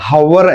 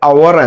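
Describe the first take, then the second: First: The word begins with an audible h sound. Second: The word begins with a vowel, no h. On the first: The speaker calls it wrong. "ഹവർ എന്നല്ല" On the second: The speaker calls it right. "നമ്മൾ പറയേണ്ടത് അവർ എന്നാണ്"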